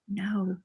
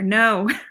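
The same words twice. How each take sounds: First: It is said at normal, quieter volume. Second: It is said more loudly.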